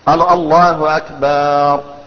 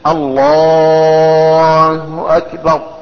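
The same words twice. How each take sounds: First: The vowel after B in Akbar is lengthened. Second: The L sound in Allah is lengthened. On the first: The word comes to mean a drum. The speaker calls it wrong. "أو قال أكبر ... أكبر معناه الطبل" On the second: The opening of the prayer is valid. The speaker calls it right. "إن مد اللام"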